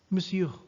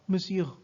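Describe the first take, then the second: The two takes are said the same way.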